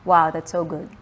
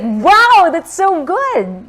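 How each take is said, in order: First: It sounds flat and unimpressed. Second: It sounds genuinely excited and impressed.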